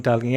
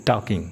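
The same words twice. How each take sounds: First: टालकिंग with the L sounded, taal-king; टालकिंग pronounced wrongly, L clearly spoken; wrong pronunciation with L. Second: टॉकिंग as tawking with no L; टॉकिंग said correctly, open aw and no L; correct pronunciation, silent L. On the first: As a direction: say टालकिंग voicing the silent L as a mistake. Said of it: "ऐसे नहीं बोलना". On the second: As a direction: say टॉकिंग the right way, L left silent. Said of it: "वो हमेशा silent रहेगा". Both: Shown as a demonstration.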